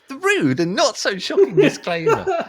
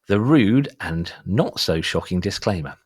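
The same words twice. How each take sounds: First: It is read in a put-on character voice. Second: It is read in his natural voice.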